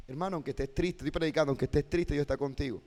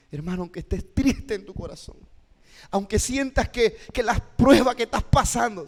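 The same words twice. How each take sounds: First: Said in the usual way. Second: Impassioned preacher's appeal, rising and building; moving intonation. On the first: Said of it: "¿sí está viendo la entonación". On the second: Shown as a demonstration. Teacher shows how to move a hurting listener, impassioned. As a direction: start measured, climb to a louder, higher plea. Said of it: "la entonación que estoy utilizando".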